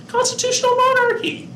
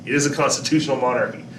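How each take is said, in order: First: Sudden squeaky falsetto, much higher; playful falsetto answer for the class; high-pitched voice. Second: Said in the usual way. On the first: Pretend. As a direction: chirp it way up high like an eager kid. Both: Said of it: "say that in a really high-pitched voice".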